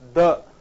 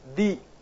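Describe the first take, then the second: First: The word ends in a short 'uh' vowel. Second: The word ends in a long 'ee' vowel. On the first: The next word starts with a consonant. "if it is before the consonant, then you have to pronounce it as the" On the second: The next word starts with a vowel. "when it comes in front of the um, vowels, we have to pronounce this as the"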